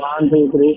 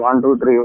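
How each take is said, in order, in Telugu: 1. మాట బలమైన గాలి శబ్దం ద్వారా వినిపిస్తోంది. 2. మాట తక్కువ గాలి శబ్దంతో వినిపిస్తోంది. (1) "స్పీడ్ గా వెళ్తున్నా ... గాలి ఎక్కువ వస్తుంది ఎదురుగా" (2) "ఇది నార్మల్ స్పీడ్"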